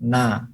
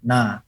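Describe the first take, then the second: No difference in how they are said.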